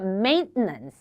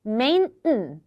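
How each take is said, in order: The two takes are said the same way.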